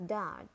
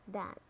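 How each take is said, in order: First: "Dart" with a sounded American R; American "Dart", curl the R before t; American accent. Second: "dart" with a British silent R; British "dart", said daht; British accent. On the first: Teacher models dart for learners, American accent. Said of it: "R in American English". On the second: Teacher models dart for learners, British accent. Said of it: "in British English". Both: Shown as a demonstration.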